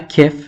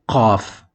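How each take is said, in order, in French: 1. Il commence par un k simple, avec la langue à l'avant. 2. Il commence par un son profond venant de la gorge. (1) "C'est pas kef" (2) "mais c'est qaf"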